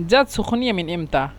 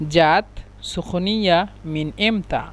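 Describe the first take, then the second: First: Said in the usual way. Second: জাত সুখনিয়া মিন ইমতা said slowly, each word apart; slow it right down for learners; slow Egyptian dialect demo; slow repeat. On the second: Shown as a demonstration. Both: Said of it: "মিশরের আঞ্চলিক ভাষা হলো".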